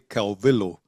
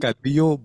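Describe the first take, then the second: First: The name is said with English pronunciation. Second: The name is said with Spanish pronunciation. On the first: The speaker calls it wrong. "my teachers used to say Calvillo" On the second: The speaker calls it right. "In Spanish"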